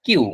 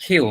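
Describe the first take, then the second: First: কিউ with a plain unaspirated k; কিউ demonstrated as the usual mistake; common wrong pronunciation. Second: খিউ with a breathy aspirated kh; খিউ as the right form, aspirated kh; correct pronunciation. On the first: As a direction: say কিউ the wrong way, hard k with no breath. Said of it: "এটার উচ্চারণটা আমরা করে থাকি". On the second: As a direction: say খিউ with air after the k. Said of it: "এটার উচ্চারণ হচ্ছে খিউ". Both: Shown as a demonstration.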